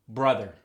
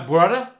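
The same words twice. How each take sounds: First: The final r sound is fully pronounced. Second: The final r sound is dropped. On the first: "In standard English, you got sister, brother" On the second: "You messing with my brother?"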